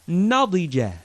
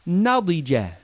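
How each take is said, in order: No difference in how they are said.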